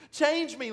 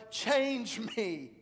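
First: Even louder, higher cry of Change me; a preacher voicing a disciple's prayer, at its loudest; stronger plea. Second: Loud, high plea to God; first cry of change me; a preacher voicing a disciple's prayer, loud. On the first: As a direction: push the repeat harder.

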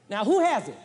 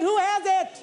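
First: Said in the usual way. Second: Higher, louder, pressing "Who has it?"; louder repeat. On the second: Shown as a demonstration. Preacher repeats to the congregation, higher and louder. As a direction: demand the answer to "Who has it?". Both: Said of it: "I said".

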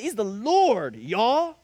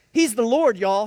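First: Said in the usual way. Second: Louder emphatic quote of a fellow preacher; imitating Mister Card. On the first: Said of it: "That's it". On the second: Preacher quoting Mister Card with a louder emphatic ring. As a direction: echo the deacon's bold declaration. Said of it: "Mister Card said".

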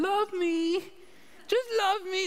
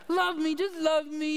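First: Higher, her own plain voice pleading; Jackie's own voice. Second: Higher put-on doggy plea; pleading dog voice. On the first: Retold or imitated. Jackie voicing the dog to her husband, in her own voice. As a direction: say it straight as Jackie would. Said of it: "She says it in her own voice". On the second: Pastor voicing the dog begging for love, as a put-on plea. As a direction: beg like the dog nuzzling your knee. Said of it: "She says it in her own voice, but, you know, it's like".

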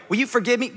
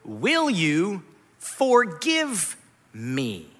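First: Said in the usual way. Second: "Will you forgive me?" very slow, word by word; deliberate request for forgiveness. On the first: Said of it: "there's not manipulation here". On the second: Acted. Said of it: "following that with".

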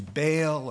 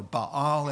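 First: Baal said as BAY-ul; Baal with a long AY sound; common anglicized pronunciation. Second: Baal said as bah-AHL; Baal with open AH vowels, not AY; proper pronunciation. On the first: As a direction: say Baal like "bail", stress up front. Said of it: "or Baal, as you should pronounce". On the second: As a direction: say Baal in two syllables, long AH at the end. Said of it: "as you should pronounce". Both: Shown as a demonstration.

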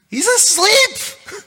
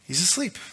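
First: He's asleep squealed very high, slow and loud; mock amazed squeal. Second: Said in the usual way. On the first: Shown as a demonstration. Preacher mocking the sleeping Jesus with a high slow squeal.

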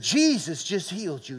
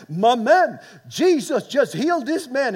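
First: Said in the usual way. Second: High, loud imitated Dutch accent; old Dutch accent. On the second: South African friend turning to the crowd, old Dutch accent. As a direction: proclaim it in a put-on Dutch accent. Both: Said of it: "In his old Dutch accent".

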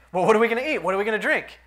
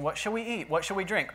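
First: Higher, louder fretful imitation of the people; mock panic over food and drink; mock worried crowd. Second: Said in the usual way. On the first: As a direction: ham up their anxious grumbling. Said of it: "that's exactly what they were saying". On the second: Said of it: "Therefore, do not be anxious, saying".

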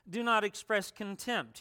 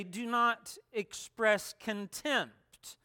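First: Said in the usual way. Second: "Do not express contempt" slow, NOT stressed; slow emphatic command. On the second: Acted. Quoting Jesus, slow emphatic.

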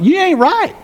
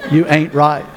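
First: "You ain't right" tossed up high with a rising end; playful accusation. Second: "You ain't right" said low, stressing "You"; low deadpan repeat. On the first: Pastor teasing the congregation, high rising playful accusation. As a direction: tease them with "You ain't right", pitch going up. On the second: Pastor repeating the phrase to Doctor Judy, low and deadpan. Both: Shown as a demonstration. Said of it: "For emphasis only".

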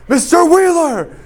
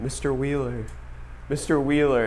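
First: Much higher, much louder bellowed name, slowed; furious yell. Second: Soft, faraway calling of the name; distant calling voice. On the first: Teacher yelling at sleeping student, full furious yell. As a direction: slam the name down like a fist on the desk. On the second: Teacher's voice heard through sleep, soft distant calling. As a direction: call it as if from the edge of a dream. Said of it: "The voice was going". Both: Retold or imitated.

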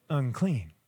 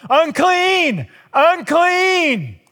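First: Soft, low, dropped word; not yelling. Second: High, loud warning cry, held long; yelling. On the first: Woman in the crowd keeping quiet, soft low murmur. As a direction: say it almost under the breath. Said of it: "she's not yelling". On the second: Woman warning crowds she is unclean, loud high yell. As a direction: call out to warn the whole crowd away. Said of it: "she would have to yell". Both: Retold or imitated.

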